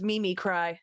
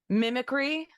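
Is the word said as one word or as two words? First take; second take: two words; one word. First: It is said as two words, Mimi cry. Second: It is said as the single word mimicry. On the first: The speaker calls it wrong. "I read it as Mimi cry" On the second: The speaker calls it right.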